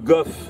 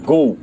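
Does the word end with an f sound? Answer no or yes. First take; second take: yes; no. First: The word ends with a clear f sound. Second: The word ends in a vowel, with no final f. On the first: This is how it is read following French spelling. "si on lit à la française" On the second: This is how it is pronounced today. "qu'on prononce go, hein, actuellement"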